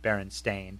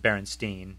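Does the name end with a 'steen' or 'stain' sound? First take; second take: stain; steen. First: The name ends with a 'stain' sound. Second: The name ends with a 'steen' sound. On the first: This is how the name is actually spelled. "and not" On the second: This is how the name is remembered. "I certainly remember it as"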